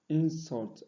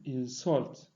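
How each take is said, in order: First: The stress is on the first syllable. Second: The stress is on the second syllable. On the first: It is used as a noun. "stressed on the first syllable when used as noun" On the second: It is used as a verb. "on the second when used as verb"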